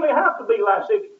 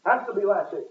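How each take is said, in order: First: "lascivious" pushed up high and loud with a rising end; stressed lascivious. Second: Said in the usual way. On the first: Shown as a demonstration. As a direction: lean hard on "lascivious", lift it.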